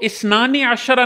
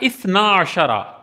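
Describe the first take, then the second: First: The first word keeps its final n sound. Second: The first word drops its final n sound. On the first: The speaker calls it wrong. "तो इस्नानी अशरा नहीं" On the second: The speaker calls it right. "यहां जो नून था वो गिर गया"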